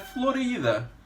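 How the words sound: The name is pronounced the Spanish way. "em espanhol é"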